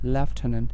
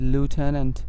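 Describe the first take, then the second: First: It is said in a British accent, starting 'lef'. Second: It is said in an American accent, starting 'loo'. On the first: "এটার British উচ্চারণ হচ্ছে লেফটেন্যান্ট" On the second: "এগুলো হচ্ছে মূলত American pronunciation"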